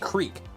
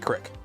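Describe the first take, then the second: First: The vowel is long, as in 'seek'. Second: The vowel is short, as in 'sick'. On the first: The speaker calls it wrong. "I say creek" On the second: The speaker calls it right. "but it's forty crick"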